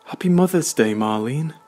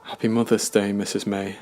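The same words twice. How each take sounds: First: High, loud, beaming greeting; jubilant cry. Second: Said in the usual way. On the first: A narrator's reading. Brandon's mum rushing over to greet Marlene, jubilant and loud. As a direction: burst out with delighted cheer. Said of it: "she jubilantly cried".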